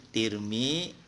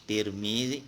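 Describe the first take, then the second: The two takes are said the same way.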